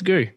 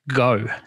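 First: The vowel is an 'oo' sound. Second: The vowel is an 'oh' sound. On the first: This is the pronunciation that follows the spelling. "if you spell something G-O-O to me, it's Goo" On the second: This is the officially confirmed pronunciation. "it is pronounced Go, G-O"

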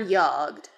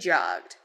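First: The word starts with a soft Y sound. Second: The word starts with a hard J sound.

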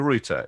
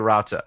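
First: It is said with a South African pronunciation. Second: It is said with an American pronunciation. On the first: "in South Africa, we say router" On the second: "In America, you say router"

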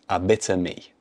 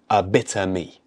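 First: The word 'of' merges into one word, 'bitter'. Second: The word 'of' merges into one word, 'bitter'.

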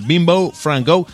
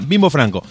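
First: It is said English-style, with a rounder final vowel. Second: It is said with an Argentine Spanish accent.

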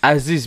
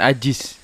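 First: The last syllable begins with a z sound. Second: The last syllable begins with a j sound. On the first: The speaker calls it right. "Aziz bukan" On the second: The speaker calls it wrong. "Kalau Jiz itu kan Jiz"

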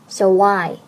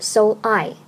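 First: The two words are linked together. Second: The two words are said separately. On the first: The speaker calls it right. "So 和I 连读，读作so I" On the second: The speaker calls it wrong. "不读so I"

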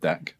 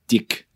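First: It is said in a standard accent. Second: It is said in a New Zealand accent.

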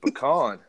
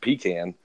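First: The first syllable sounds like 'puh'. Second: The first syllable sounds like 'pee'. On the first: This is how people back home say it. The speaker calls it right. "Then the nut is a pecan" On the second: This is how other people say it. The speaker calls it wrong. "you guys think it's a pecan, which back home, that's the thing they manufacture and send to nursing homes"

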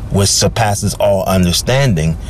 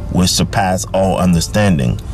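Both takes have the same delivery.

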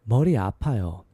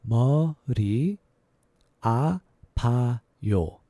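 First: It is said fast. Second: It is said slowly.

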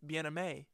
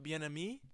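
First: The name is said in a French way. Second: The name is said in an Americanized way. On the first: The speaker calls it right. "sounding more French" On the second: The speaker calls it wrong. "I've always been pronouncing it"

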